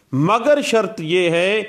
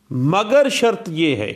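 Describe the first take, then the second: No difference in how they are said.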